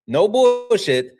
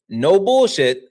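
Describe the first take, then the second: First: Slow and high, stretch "bullshit" out; drawn-out emphasis. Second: Higher and louder, punch bullshit; emphatic. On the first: Repeating it to chat, slow and stretched. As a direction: lean on every syllable of "bullshit", slowly. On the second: Telling chat he isn't lying, loud and emphatic. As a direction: insist hard on bullshit. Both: Real, not acted.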